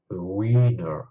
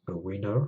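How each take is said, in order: First: WINNER with the i drawn out long and loud. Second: WINNER with a short, quick i. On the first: Teacher showing learners the word for a crybaby, long loud i in WINNER. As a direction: stretch the first vowel of "winner" into a long, slow "wee". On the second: Teacher showing learners the English word for a champion, short i in WINNER. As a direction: say "winner" with a brief first vowel. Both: Shown as a demonstration. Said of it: "j'ai prononcé le i plus longtemps dans le second cas".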